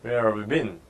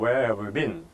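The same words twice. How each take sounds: Both takes have the same delivery.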